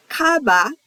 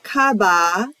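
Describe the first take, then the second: First: "Kaba" with two short morae, ka-ba. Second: "Kaba" with three morae, the first vowel held long, kaa-ba. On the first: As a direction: say "Kaba" quick and short, no stretched vowel. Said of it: "It's two molars". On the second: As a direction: stretch the first vowel of "Kaba" to a full extra beat. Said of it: "It's three molars". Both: Shown as a demonstration.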